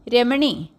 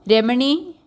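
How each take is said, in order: First: The name repeated with a falling, insistent call; calling again. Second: Calling out. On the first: Husband calling wife again, a falling insistent call. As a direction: call her once more, falling at the end. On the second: Husband calling wife from the house, a rising call. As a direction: call her name from the other room. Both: A narrator's reading. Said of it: "Prakashan വീണ്ടും വീണ്ടും വിളിച്ചു".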